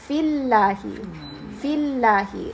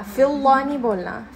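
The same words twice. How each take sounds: First: "फिल्लाही" with a thin, light lam. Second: "फिल्ला" with a heavy, full-mouthed lam; heavy wrong demo. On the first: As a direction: model the correct light "फिल्लाही". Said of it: "इसको light बना देंगे". ("फिल्लाही" हल्के लाम के साथ) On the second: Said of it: "ये heavy नहीं बोलना". ("फिल्ला" भारी लाम के साथ, ग़लत तरीका) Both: Shown as a demonstration.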